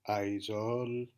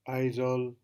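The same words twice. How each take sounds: First: The syllables are not both high. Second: Both syllables are on a high tone. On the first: The speaker calls it wrong. "intentionally produce a wrong tone" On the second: The speaker calls it right. "right tone"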